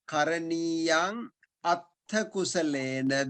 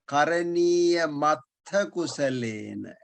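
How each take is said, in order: First: The words are said separately, with final m. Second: The m links onto the next word. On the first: "if you want to separate"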